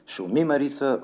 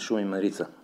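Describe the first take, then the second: First: The word shumi carries its natural spoken stress. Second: The word shumi carries an awkward, unnatural stress. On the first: The speaker calls it right. "прозодията беше правилна" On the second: The speaker calls it wrong. "Аз и сега го произнасям така, с неправилно ударение"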